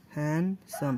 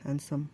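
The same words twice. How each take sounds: First: handsome slowly broken in two, HAND - SOME; teacher sounding out handsome beat by beat; split into syllables. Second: Said in the usual way. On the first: Shown as a demonstration. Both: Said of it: "दो syllable है ना".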